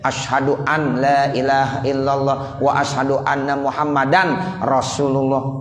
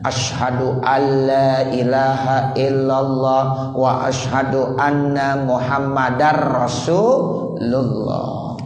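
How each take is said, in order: First: The n sound is pronounced before la and ra. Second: The n sound merges into the following l and r. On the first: The speaker calls it wrong. "itu di dalam sholat nggak boleh begitu" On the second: The speaker calls it right. "jadi harus idgham bila gunanya"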